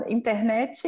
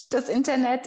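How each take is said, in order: First: Internet as "interneti", with an added final i; Brazilian pronunciation. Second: Internet said the German way, ending in t; German pronunciation. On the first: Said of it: "setzen wir sehr gern überall ein". (Internet brasilianisch mit i am Ende) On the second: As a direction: say Internet with a clipped final t. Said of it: "ist dann Internet". (Internet deutsch ausgesprochen) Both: Shown as a demonstration.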